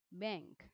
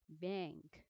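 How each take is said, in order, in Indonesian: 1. Kata ini diucapkan dengan cara Inggris. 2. Kata ini diucapkan dengan cara Inggris.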